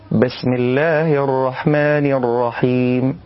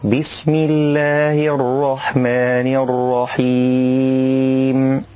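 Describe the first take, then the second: First: بسم with ba tilted toward e, slow; wrong tilted ba. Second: بسم with a clear full i on ba, slow chanted recitation; correct kasra ba. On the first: Teacher demonstrates the mistaken reading. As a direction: read بسم with a leaning vowel, slowly. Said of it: "وهذا خطأ". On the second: Teacher recites the correct form, slow and chanted. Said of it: "والصواب أن يأتي بالباء مكسورة". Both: Shown as a demonstration.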